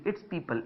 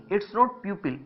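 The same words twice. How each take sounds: First: "people" said pee-pul like the peepal tree; the right way: "people" with a long ee, pee-pul; "people" pronounced pee-pul, not pyoo-pil; correct pronunciation. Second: "pupil" said as pyoo-pil, the common mistake, a touch higher; the wrong way: "pupil" with a pyoo sound; "pupil" said like the school word pyoo-pil; wrong pronunciation. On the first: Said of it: "इसका pronunciation आपको पता होना बहुत जरूरी है". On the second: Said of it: "इसको प्यूपिल नहीं". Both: Shown as a demonstration.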